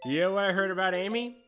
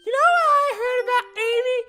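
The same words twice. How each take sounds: First: It is read in the speaker's normal voice. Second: It is read in a put-on character voice.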